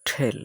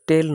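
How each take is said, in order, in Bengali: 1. প্রথম ব্যঞ্জনবর্ণে জোরালো শ্বাসের ঝলক আছে। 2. প্রথম ব্যঞ্জনবর্ণে কোনো শ্বাসের ঝলক নেই। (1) "সঠিক উচ্চারণ হবে ঠেল" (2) "টেল নয়"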